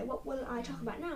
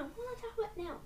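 First: Said in the usual way. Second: Squeaky high repeat; high silly voice. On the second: Acted. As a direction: pipe it up high and soft.

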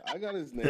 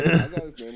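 First: Said in the usual way. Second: "I got his name" laughed out loud; laughing. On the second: Real, not acted. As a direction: burst out laughing on it.

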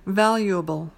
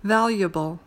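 First: "valuable" in four syllables, VAL-yoo-uh-bul, clear u; full "valuable". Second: "Valuable" said in three syllables, VAL-yuh-bul, u swallowed; reduced "valuable". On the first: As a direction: give "valuable" its full u vowel. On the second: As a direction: squeeze "Valuable" to three beats, no clear u. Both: Shown as a demonstration. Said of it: "or valuable".

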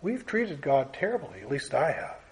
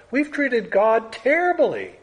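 First: Hushed personal admission; quiet confession. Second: Raised preaching voice; emphatic declaration. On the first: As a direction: confess it almost to yourself. Preacher confessing after a long pause. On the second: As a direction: announce it to the whole room. Preacher stating a shared wrong. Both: Real, not acted.

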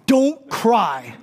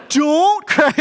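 First: A chuckling mock plea; half-laughing dad telling the kid not to cry; a dad at Target pleading with a crying kid, through a laugh; laughing don't cry. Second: Much higher and louder mock wail of don't cry; a frantic dad at Target begging the crying kid, higher and louder; louder desperate plea. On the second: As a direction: escalate into a hammed-up desperate cry.

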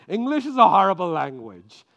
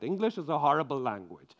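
First: Louder repeat to make it stick. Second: Said in the usual way. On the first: Shown as a demonstration. Preacher repeating the point louder so it sticks. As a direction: hammer the line home, much louder. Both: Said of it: "let it get stuck in your mind".

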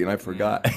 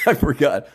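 First: Said in the usual way. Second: Laughing. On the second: Real, not acted. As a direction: repeat I forgot with a laugh, higher and louder. Repeats it laughing at himself.

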